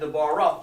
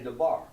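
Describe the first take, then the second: First: The word ends with an extra vowel sound. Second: The word ends on the r, without a vowel. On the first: The speaker calls it wrong. "instead of saying Debar off" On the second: The speaker calls it right. "just say Debar"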